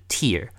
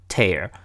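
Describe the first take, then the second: First: It is the noun pronunciation, meaning a teardrop. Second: It is the verb pronunciation, meaning to rip. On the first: It means a drop from the eye. "你把它当成眼泪的话，那它就是tear" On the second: It means to rip something apart. "它就是撕东西的意思，撕一张纸，这个时候就念tear"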